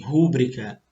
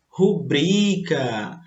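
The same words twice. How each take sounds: First: Rúbrica stressed as RU-bri-ca; the common mistaken "rúbrica", first syllable strong; wrong stress demo. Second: Rubrica stressed slowly as ru-BRI-ca; the correct "rubrica", long middle syllable; paroxytone stress. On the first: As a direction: hit RU in "rúbrica", quick low ending. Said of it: "muita gente fala assim". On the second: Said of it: "ela é paroxítona". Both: Shown as a demonstration.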